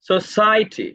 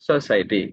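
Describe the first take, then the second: First: It is said with a native English stress pattern. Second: It is said with a local Tamil stress pattern.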